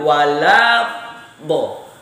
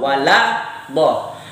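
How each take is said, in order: First: The phrase is said slowly and drawn out. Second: The phrase is said at normal speed.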